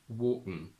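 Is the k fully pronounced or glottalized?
glottalized. The k is blocked in the throat.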